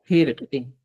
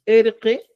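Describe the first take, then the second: First: "jerque" opening on an aspirated J sound; pronounced with initial H. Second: "erque" starting straight on the vowel; pronounced without initial H. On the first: Teacher showing the other valid form, "jerque" with initial J. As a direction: add a J sound before "erque": "jerque". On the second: Teacher showing the first valid form, "erque" without initial H. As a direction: say "erque" with no breathy onset. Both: Shown as a demonstration. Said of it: "Cualquiera de esas dos expresiones".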